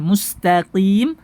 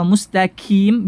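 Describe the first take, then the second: First: Back-of-tongue Q in MUSTAQIM; correct qaf. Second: Slow MUSTAQIM pronounced mustakim; light front K for the Q in MUSTAQIM; qaf turned kaf. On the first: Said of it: "Qi sama ki itu beda". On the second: Teacher showing the mistake, qaf as kaf. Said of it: "Merubah qaf menjadi kaf". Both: Shown as a demonstration.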